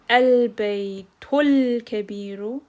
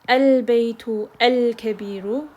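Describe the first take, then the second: First: The words run together, skipping the alif. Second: The alif before kabiru is pronounced separately. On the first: "when we take it a step further, we can say" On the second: "rather than pronouncing it"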